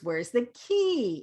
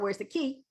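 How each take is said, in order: First: The word key is stretched with a pitch glide. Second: The word key is short and flat. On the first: The speaker calls it right. "Do you hear the glide?" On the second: The speaker calls it wrong. "It's not"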